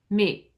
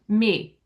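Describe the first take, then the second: No difference in how they are said.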